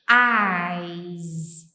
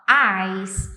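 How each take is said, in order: First: The word ends with a buzzing z sound. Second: The word ends with a hissing s sound. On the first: The speaker calls it right. "Um sonzinho de Z no final" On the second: The speaker calls it wrong. "se por um acaso você fizer meio que um som de S"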